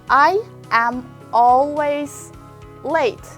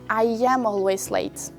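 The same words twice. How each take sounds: First: The words are said without a linking 'y' sound. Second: The words are joined with a linking 'y' sound.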